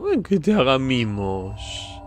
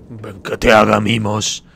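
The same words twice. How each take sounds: First: Put-on very slow, drawn-out baby-talk coo; doting cooing. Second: Loud, slow mock-doting voice; playful coaxing. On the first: Cooing at a gnome. (arrullo mimoso y muy alargado) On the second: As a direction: coax a little creature with big drawn-out words. Coaxing a gnome to cuddle. (llamada mimosa, fuerte y lenta)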